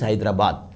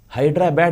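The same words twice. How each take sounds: First: It is said in a native Telangana way. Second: It is said anglicized, like Hydra-bad. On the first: This is how locals of the city say it. The speaker calls it right. "A Telanganite will pronounce Hyderabad as Hyderabad" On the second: This is how outsiders from Andhra say it. The speaker calls it wrong. "in Andhra, they call it as Hyderabad. ... It is not Hydra or bad"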